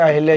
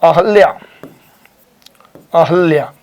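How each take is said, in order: First: अहिल्या with short i after ह; incorrect pronunciation. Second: अहल्या with short a after ह, no i; correct pronunciation. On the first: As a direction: say अहिल्या as a-hil-ya. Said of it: "ये गलत है". (अहिल्या, ह में इ लगाकर) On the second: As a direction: sound out अहल्या clearly as a-hal-ya. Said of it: "this is right". (अहल्या, ह में इ के बिना) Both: Shown as a demonstration.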